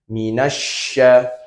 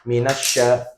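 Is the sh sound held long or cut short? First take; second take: held long; cut short. First: The sh sound is held before continuing. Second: The sh sound is cut short quickly. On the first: The speaker calls it right. "Harusnya ditahan terlebih dahulu" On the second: The speaker calls it wrong. "membacanya terlalu cepat sehingga terpotong"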